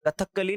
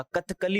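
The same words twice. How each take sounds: First: "कथकली" with a held, doubled k and an extra vowel, ka-tha-kka-li; wrong pronunciation. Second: "कथकली" as kath-ka-li, th closing straight into k; correct pronunciation. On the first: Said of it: "कथकली नहीं होता". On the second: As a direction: say "कथकली" right, kath-kali, no extra vowel. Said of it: "कथकली होता है". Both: Shown as a demonstration.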